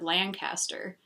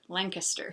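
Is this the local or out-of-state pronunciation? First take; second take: out-of-state; local. First: It is said in the out-of-state way. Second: It is said in the local way. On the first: The speaker is not from the area. The speaker calls it wrong. "she could tell I was from out of state because I said" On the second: The speaker is from the area. The speaker calls it right. "people in Lancaster pronounce it"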